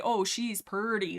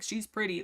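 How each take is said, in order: First: Light Southern drawl on "purdy"; slow Southern "purdy" for pretty; Southern accent. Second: Said in the usual way. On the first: Shown as a demonstration. Explaining a character's name to viewers, light Southern accent. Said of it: "like, a Southern accent". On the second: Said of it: "when you say".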